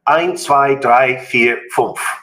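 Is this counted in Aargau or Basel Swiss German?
Basel. It is counted in Basel dialect, near High German.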